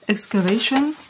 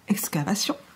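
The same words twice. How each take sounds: First: The word is pronounced the English way. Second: The word is pronounced the French way. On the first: "on va le prononcer à l'anglaise" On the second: "En français"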